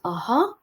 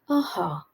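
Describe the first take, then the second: First: It is said in a high-pitched voice. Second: It is said in a low-pitched voice. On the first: "which is a high" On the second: "and a low, and speak in the low"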